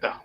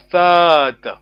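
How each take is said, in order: First: Tata said with a short vowel. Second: Tata with the first a drawn out long; long vowel tata. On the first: Teacher shows the wrong way, short vowel. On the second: Teacher models the right way, long vowel. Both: Shown as a demonstration. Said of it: "it's a long vowel".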